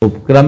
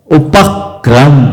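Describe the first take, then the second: First: उपक्रम rushed, run together as upkram; quick careless उपक्रम, no weight on उ; wrong way. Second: उपक्रम said slowly, leaning on the first उप before क्र; slow, careful उपक्रम with the stress on उप; correct stress. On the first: Teacher to class, showing the wrong quick उपक्रम. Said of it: "उपक्रम नहीं बोलते". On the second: Teacher to class, slow correct उपक्रम. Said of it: "क्या बोलेंगे?". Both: Shown as a demonstration.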